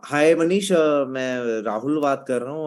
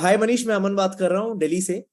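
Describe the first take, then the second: First: The caller sounds hesitant, with stumbling filler sounds. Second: The caller sounds confident and speaks smoothly and clearly.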